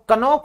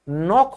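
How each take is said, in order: First: A 'k' sound is heard before the 'n'. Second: The word begins directly with the 'n' sound. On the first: The speaker calls it wrong. "कनौक नहीं होता" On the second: The speaker calls it right. "नॉक होता है, क्योंकि इस rule की वजह से के साइलेंट होता है"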